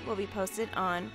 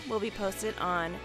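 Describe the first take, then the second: No difference in how they are said.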